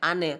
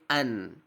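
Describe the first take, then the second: First: The n bounces into a short added vowel. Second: The n ends cleanly without an added vowel. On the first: The speaker calls it wrong. "tidak boleh ane" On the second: The speaker calls it right. "tapi an"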